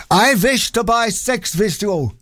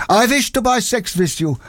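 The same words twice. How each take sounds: First: Put-on slow German accent, v for w. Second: Put-on higher pantomime German accent, v for w; hammed-up German accent. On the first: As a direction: pantomime German accent, drawn out. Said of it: "Sorry about the accent". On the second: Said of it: "pantomime German accent".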